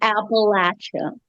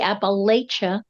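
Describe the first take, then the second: First: The middle sounds like the words 'apple at'. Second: The middle does not sound like 'apple at'. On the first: This is how the speaker's own region says it. The speaker calls it right. "I'm going to throw an apple at you. So we say Appalachia" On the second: This is how people in Pennsylvania say it. The speaker calls it wrong. "In Pennsylvania, it may in fact be Appalachia"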